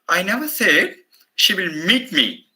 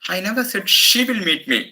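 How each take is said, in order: First: The word meet carries the main stress. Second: The word she carries the main stress. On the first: She may make contact in some other way. "the meeting is impossible" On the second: Someone else may come instead of her. "Maybe somebody on her behalf will meet me"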